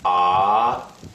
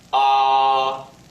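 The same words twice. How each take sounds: First: The pitch starts lower and rises up. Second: The pitch stays high and level throughout. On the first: "start your pitch a bit lower and then raise it up" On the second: "It is a high and level pitch"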